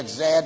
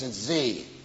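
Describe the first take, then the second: First: The letter is said the Canadian way, 'zed'. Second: The letter is said the American way, 'zee'.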